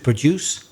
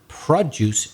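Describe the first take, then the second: First: The stress is on the second syllable. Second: The stress is on the first syllable. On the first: It is the verb meaning to create or make. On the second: It is the noun meaning the thing produced.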